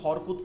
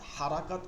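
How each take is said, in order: First: The word is shortened to two syllables. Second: The word has three syllables with full vowels. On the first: This is how Bengali speakers usually say it. "আমরা কিন্তু হরকত উচ্চারণ করি" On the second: This is the original Arabic form. "হারাকাত আরবি শব্দ।"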